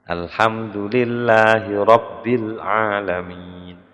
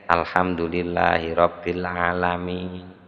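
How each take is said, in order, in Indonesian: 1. Bacaannya terdengar berat, dengan penekanan yang berbobot. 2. Bacaannya terdengar ringan, tanpa penekanan yang berbobot. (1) "nek bacaan tafkhim" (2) "Ini kan enteng kesannya itu"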